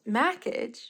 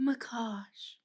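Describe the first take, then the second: First: The name ends like the word 'package'. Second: The name's second part sounds like 'cash'. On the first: The speaker calls it wrong. "I would pronounce it as Mackage" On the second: The speaker calls it right. "It was Macash"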